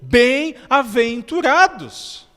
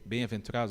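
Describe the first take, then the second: First: It is said with lively, exclaiming energy. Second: It is said in a flat, monotonous voice. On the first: The speaker lives the words being said. The speaker calls it right. "Jesus falou" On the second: The reader is not living the text. The speaker calls it wrong. "aquela leitura é, monótona"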